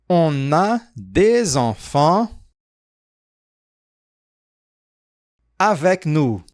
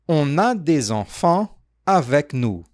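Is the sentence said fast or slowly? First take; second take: slowly; fast. First: The sentence is said at a slow pace. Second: The sentence is said at a fast pace. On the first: "Mais devagar" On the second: "Foi rápido?"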